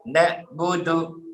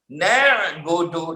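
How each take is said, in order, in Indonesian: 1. Konsonan setelah 'na' adalah hamzah. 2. Konsonan setelah 'na' adalah bunyi faringal.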